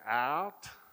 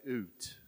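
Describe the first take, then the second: First: It is said in an American accent. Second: It is said in a Canadian accent.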